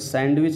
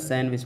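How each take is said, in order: First: The d sound is pronounced in the middle. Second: The d sound is left out entirely. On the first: The speaker calls it wrong. "इसको सैंडविच नहीं पढ़ा जाता" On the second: The speaker calls it right. "सैंडविच पढ़ा जाता है"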